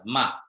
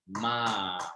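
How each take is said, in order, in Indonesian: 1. Vokalnya ditahan satu ketukan. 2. Vokalnya ditahan dua ketukan. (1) "Tapi ini satu ketukan" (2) "Agak dua ketukan dia"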